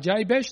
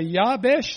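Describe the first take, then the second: First: The name is said with an Australian-style pronunciation. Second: The name is said with a Hebrew-style pronunciation. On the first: "like an Aussie" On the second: "like a Hebrew"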